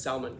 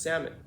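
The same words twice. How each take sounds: First: SALMON with the L sounded, "sal-mon"; mispronounced salmon. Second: SALMON with a silent L, "SAM-un"; correct salmon. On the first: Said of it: "It's not pronounced salmon". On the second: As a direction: drop the L in SALMON. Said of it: "it's pronounced salmon". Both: Shown as a demonstration.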